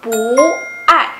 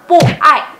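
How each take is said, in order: First: Drawn-out rising "pu", then falling "ai"; "pu" becomes second tone. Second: "pu" falling, then "ai" falling; unchanged fourth tone. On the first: Teacher correcting the tone change, "pu" rising before "ai". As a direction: raise "pu" slowly, pause, drop "ai". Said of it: "tapi jadi". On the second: Teacher showing the reading to avoid, two snapped falls. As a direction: snap both "pu" and "ai" downward. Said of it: "bukannya dibacanya". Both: Shown as a demonstration.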